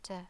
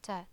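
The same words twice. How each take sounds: Both takes have the same delivery.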